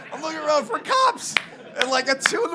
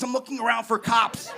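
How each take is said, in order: First: Same line said much higher, rising at the end; higher take. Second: Said in the usual way. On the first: Shown as a demonstration. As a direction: lift it up into a worried rise.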